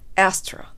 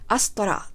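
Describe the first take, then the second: First: The first vowel is wide and open. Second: The first vowel is plain and light. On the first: The speaker calls it right. "縦にも横にも唇を大きく広げて" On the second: The speaker calls it wrong. "アストラとあっさりじゃなくてですね"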